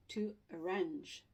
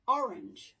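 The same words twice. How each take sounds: First: ARRANGE with a light first a and stressed RANGE; stress on second syllable. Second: ORANGE punched on its first syllable, louder; stress on first syllable. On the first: Teacher showing where the stress falls, second syllable stressed. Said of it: "stress is gonna be on this syllable". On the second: Teacher contrasting it with arrange, first syllable stressed. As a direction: hit the OR of ORANGE, let the rest fall. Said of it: "here the stress is". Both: Shown as a demonstration.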